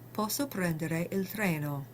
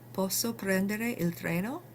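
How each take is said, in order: First: It is said as a plain statement. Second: It is said with a questioning tone. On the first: The speaker states they are able to take the train. "I can take the train" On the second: The speaker asks permission to take the train. "you can use tone of voice to ask if you can do something"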